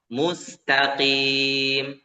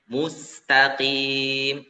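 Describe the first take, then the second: No difference in how they are said.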